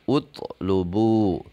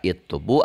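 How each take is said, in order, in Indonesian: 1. Kata ini diawali dengan vokal u. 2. Kata ini diawali dengan vokal i. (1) "dibaca utlubu" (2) "Tidak itlubu"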